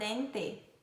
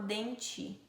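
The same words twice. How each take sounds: First: The t is a plain t sound. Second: The t sounds like ch.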